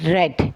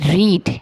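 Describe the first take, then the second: First: The vowel is a short 'e' sound. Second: The vowel is a long 'ee' sound. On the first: It is the past tense. "Past tense में ... हम इसको पढ़ेंगे रेड" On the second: It is the present tense. "लंबा करके पढ़ेंगे"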